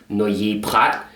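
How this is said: It is pronounced the French way.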